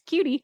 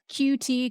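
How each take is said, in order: First: The letters run together quickly as one word. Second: The two letters are said separately. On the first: "if you say it fast" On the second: "that's the letter Q and the letter T"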